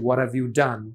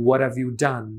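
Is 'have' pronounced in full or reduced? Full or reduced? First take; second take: reduced; reduced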